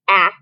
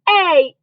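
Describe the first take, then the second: First: The vowel is said as a short 'ah' sound. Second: The vowel is said as a long 'ay' sound. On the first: "an example would be ah" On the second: "do the long sound"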